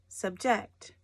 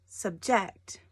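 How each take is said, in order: The two takes are said the same way.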